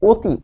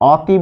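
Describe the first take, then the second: First: The first vowel is a closed 'oh' sound. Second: The first vowel is an open 'aw' sound. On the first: The speaker calls it right. "লিখছে অ দিয়ে কিন্তু বলছে আসলে ও দিয়ে" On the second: The speaker calls it wrong. "অতি বলেছে কেউ কোনোদিন?"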